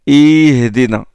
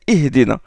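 First: The short i vowel is stretched out long. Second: The short i vowel is kept brief. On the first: The speaker calls it wrong. "Il faut éviter le prolongement excessif des voyelles courtes" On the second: The speaker calls it right. "Non, c'est اهدنا"

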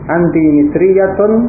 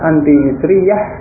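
First: The full case ending is pronounced at the end. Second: The word ends without its case ending. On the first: This is careful reading for study. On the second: This is everyday conversational speech.

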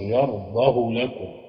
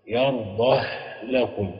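First: The 'h' has a short vowel after it. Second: The 'h' has no vowel after it. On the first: "القصر" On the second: "اللي هيسكن السوسي وابن جماز"

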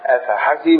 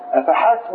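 First: The 's' sound carries a short 'i' vowel. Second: The 's' sound carries no vowel after it. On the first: It asks whether they thought or assumed something. "كسرة تحتها كسرة مش كده؟" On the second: It asks whether something was enough for them. "المعنى الثاني لو كانت السين بالسكون"

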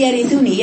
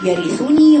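First: The u vowel is clipped short and snatched. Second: The u vowel is given its full length. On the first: The speaker calls it wrong. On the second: The speaker calls it right.

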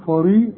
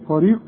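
Both takes have the same delivery.

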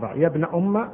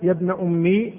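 First: The last word ends in a short a vowel. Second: The last word ends in a long i vowel. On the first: The speaker calls it right. "بالفتح" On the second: The speaker calls it wrong. "بالياء"

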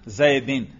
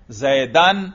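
First: The word ends in -in. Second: The word ends in -an. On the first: The noun is in the genitive case. "اور زیدن میں نے کیا پڑھا؟ جر" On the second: The noun is in the accusative case. "زیدن میں نے کیا پڑھا؟ نصب"

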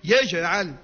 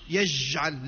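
First: The j sound ends with a bounce. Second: The j sound ends without a bounce. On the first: The speaker calls it right. "لا يجعل" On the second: The speaker calls it wrong. "ما نقولوش"

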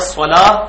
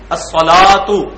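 First: The word ends with an h sound. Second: The word ends with a t and vowel. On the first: The word is at a pause. "وقف ہو کر ہا بن جاتا ہے" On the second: This is the full form of the word. "الصلاتو یہ لفظ ہے"

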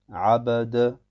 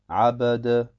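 The two takes are said the same way.

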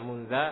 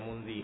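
First: The word ends with an a vowel. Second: The word ends with an i vowel. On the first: "Enggak pernah baca munza" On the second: "enggak pernah baca munzi"

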